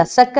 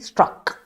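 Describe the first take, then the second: First: സ്റ്റക്ക് with no R after the T; wrong word form. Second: സ്ട്രക്ക് with an R after the T; corrected word form. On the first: Teacher correcting Revathi, quoting സ്റ്റക്ക് without its R. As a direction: drop the R, saying സ്റ്റക്ക്. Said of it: "അല്ല Revathi". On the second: Teacher giving Revathi the correction, സ്ട്രക്ക് with its R sounded. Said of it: "സ്റ്റക്ക് അല്ല Revathi". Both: Shown as a demonstration.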